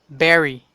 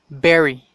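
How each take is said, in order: The two takes are said the same way.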